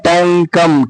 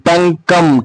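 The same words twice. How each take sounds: The two takes are said the same way.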